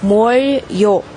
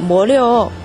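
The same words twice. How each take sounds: First: The syllables are said separately without linking. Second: The syllables are linked together smoothly. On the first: "如果不连读的话，就是" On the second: "连读后变成"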